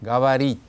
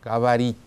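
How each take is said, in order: No difference in how they are said.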